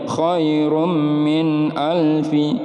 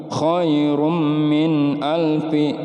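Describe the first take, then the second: Both takes have the same delivery.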